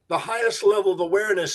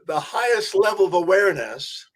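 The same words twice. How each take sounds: First: It is said at a normal pace. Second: It is said more slowly.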